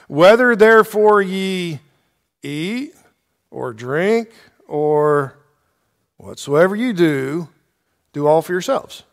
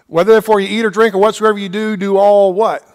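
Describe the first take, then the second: First: Slow, halting quote with pauses between phrases; deliberate misquote. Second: Quick run-through of the verse, pitched higher; brisk correction. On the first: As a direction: lead them slowly into the wrong ending. Deliberate misquote, then corrected with "No. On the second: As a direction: rattle it off and leave the ending open. Corrects the misquote, prompting the listeners. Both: Shown as a demonstration.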